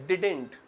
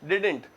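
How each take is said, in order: Both takes have the same delivery.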